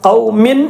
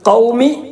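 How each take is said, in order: First: The final n is pronounced fully and clearly. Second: The final n is left out entirely. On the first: "ഖൗമിൻ എന്ന് വ്യക്തമായി, അങ്ങനെ വ്യക്തമാക്കാൻ പറ്റൂല" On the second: "ആ തൻവീൻ ഒഴിവാക്കിയിട്ട് പറയാനും പറ്റൂല"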